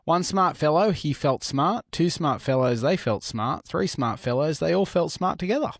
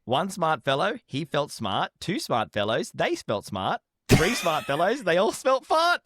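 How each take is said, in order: First: Careful, even tongue-twister delivery; tongue twister attempt. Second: Careful tongue twister that slips at the end; tongue twister attempt. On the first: Reading a tongue twister to the podcast hosts, careful and even. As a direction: rattle off the tongue twister cleanly. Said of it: "Try saying this tongue twister". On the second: Co-host takes his turn at the tongue twister, stumbling at the end. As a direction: try the tongue twister, fumble the last word. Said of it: "let me try". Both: Shown as a demonstration.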